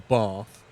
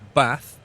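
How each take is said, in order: First: It is said with a southern English accent. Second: It is said with a northern English accent. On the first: This is how the speaker does not say it. "I don't say glass or bath" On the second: This is how the speaker still says it. "I still say bath"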